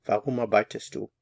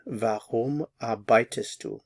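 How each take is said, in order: First: Said in the usual way. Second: Warum arbeitest du drawn out slowly; slow model. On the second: Shown as a demonstration. Teacher models the question slowly for learners. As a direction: say it slowly, word by word. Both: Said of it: "put the warum in front of it".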